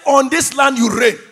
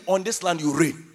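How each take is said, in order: First: Loud, insistent repetition; emphatic declaration. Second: Said in the usual way. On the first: Real, not acted. Preacher insisting to the congregation that they reign, loud declaration. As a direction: declare it forcefully to the crowd. Repeats it louder after "I say.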